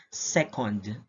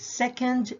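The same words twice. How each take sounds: First: "second" with a fuller last vowel; time-unit pronunciation. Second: "second" as in first and second, reduced ending; ranking pronunciation. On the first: Teacher recaps the last pair, time-unit pronunciation. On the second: Teacher recaps the last pair, ranking pronunciation. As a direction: say "second" as a rank. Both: Shown as a demonstration. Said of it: "but they have different sounds".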